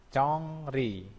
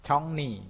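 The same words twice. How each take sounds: First: "congri" with r after the ng; as written. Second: "congni" with r turned into n; higher "congni", ng flowing into n; as pronounced. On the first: Teacher reads the spelling first, unassimilated "congri". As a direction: keep the r in "congri". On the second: Teacher shows what it becomes when read, assimilated "congni". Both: Shown as a demonstration. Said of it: "bacanya jadinya".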